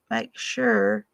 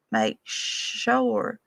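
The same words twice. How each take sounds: First: "sure" said the standard way, like "shur"; plain textbook "sure"; standard pronunciation. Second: "sure" drawn out as "shoor-er" in the mountain way; mountain pronunciation. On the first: The boy playing Zeke showing the wrong way to say sure. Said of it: "It's not 'make sure.'". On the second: The boy playing Zeke teaching the mountain way, saying sure. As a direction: say "sure" like "shoo-uh". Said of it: "You're supposed to say". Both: Shown as a demonstration.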